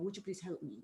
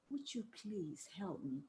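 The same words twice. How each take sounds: First: It is said quickly, with little expression. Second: It is said slowly, with expressive timing.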